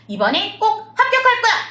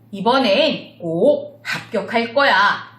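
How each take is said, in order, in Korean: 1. '합' 음절에는 특별한 누름 강세가 없다. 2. '합' 음절은 눌렀다가 올라간다. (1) "이게 아니고요" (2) "합자에다가 액센트를 주시면서 약간 눌렀다 올라오십니다"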